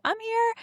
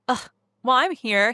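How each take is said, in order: First: High, gentle and sincere. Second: Reluctant sigh of a reply; grudging. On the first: Boyfriend comforting his sad girlfriend, sincere. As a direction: say it with real care. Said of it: "He's like". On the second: How the boyfriend does not say it, grudging. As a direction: say it like it's a chore. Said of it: "he doesn't say it like". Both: Shown as a demonstration.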